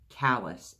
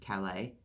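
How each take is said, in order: First: The name is pronounced the anglicized way. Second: The name is pronounced the French way. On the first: This is how the name's owner says it. "Alice said" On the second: The name comes from a place in France. "You know that's a French name"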